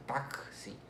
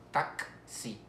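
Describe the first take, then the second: First: Taxi run together as "tak-si", K released into the S. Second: Taxi split into "tak" and "si" with a gap; syllable division. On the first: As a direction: sound out the KS in taxi. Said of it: "pero en sonido es taxi". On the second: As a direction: break taxi slowly into two syllables. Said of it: "la división silábica". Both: Shown as a demonstration.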